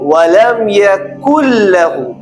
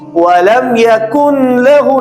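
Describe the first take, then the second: First: The n merges fully into the l, without nasality. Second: The n sound is clearly pronounced before the l. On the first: The speaker calls it right. "नून की आवाज को मुकम्मल तरीके से निकाल देंगे" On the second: The speaker calls it wrong. "नहीं"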